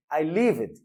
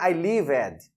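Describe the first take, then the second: First: Lived as one syllable ending in d; correct pronunciation. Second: Lived said as li-ved with a full extra syllable; wrong pronunciation. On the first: Teacher demonstrates correct lived to the class, ending in d. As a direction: say lived in one beat with a final d. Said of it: "O som é de D". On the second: Teacher demonstrates the common mistake: lived as li-ved. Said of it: "Está errado". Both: Shown as a demonstration.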